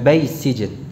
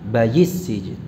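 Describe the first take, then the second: First: There is no 'yi' sound before sijn. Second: A 'yi' sound comes before sijn. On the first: The speaker calls it wrong. "Bukan bais sijn" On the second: The speaker calls it right. "yi yi"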